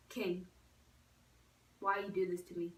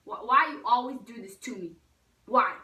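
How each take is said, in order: First: Low-key mock reproach. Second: Louder, emphatic questioning; exasperated mock plea. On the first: Pleading with kennelled dog. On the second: Girl to kennelled dog, loud exasperated plea. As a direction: hammer out "why" in mock despair.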